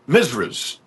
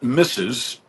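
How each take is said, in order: First: It is said with an extra 'ruh' syllable, 'misras'. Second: It is said as the usual two syllables, 'missus'. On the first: This is an old Southern way of saying it. "they call them Misras" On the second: This is the usual way of saying it. "not Missus"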